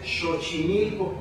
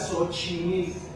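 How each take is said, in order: First: The word begins with an sh sound. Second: The word begins with an s sound. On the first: This is the original Nahuatl pronunciation. "la X del náhuatl... se pronuncia como la S H del inglés" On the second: This is how people commonly say it today. "la gente lo usa como S"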